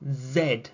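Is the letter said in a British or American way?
British. The letter is said the British way.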